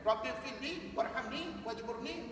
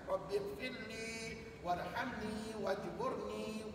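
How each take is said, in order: First: The final vowels are cut short. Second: The final vowels are held for two beats. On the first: It changes the meaning so the speaker is not named. The speaker calls it wrong. "Bukannya ... baca pendek begitu" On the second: It asks forgiveness for oneself. The speaker calls it right. "tapi harakatnya mesti dua"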